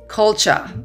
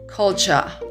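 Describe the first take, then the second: First: It is said in a British accent. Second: The same.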